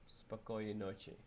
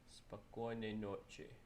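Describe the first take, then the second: First: The phrase is said at normal speed. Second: The phrase is said slowly and carefully.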